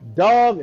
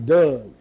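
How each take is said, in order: First: It is said in a standard accent. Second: It is said in a Baltimore accent.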